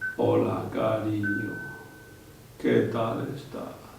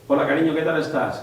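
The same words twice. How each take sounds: First: It is said in a distorted, broken voice. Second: It is said in a clear, normal voice.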